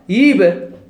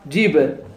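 First: The word begins with a y sound. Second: The word begins with a j sound.

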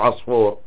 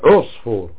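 First: The first vowel is not a 'u' sound. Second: The first vowel is a rounded 'u' sound. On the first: The speaker calls it wrong. "مو بعصفور" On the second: The speaker calls it right. "بضم عينه"

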